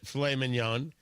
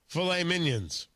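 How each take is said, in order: First: The second word sounds like 'mee-nyon'. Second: The second word sounds like 'minions'. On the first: "he doesn't pronounce it filet mignon" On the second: "He pronounces it filet minions"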